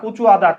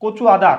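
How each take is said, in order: No difference in how they are said.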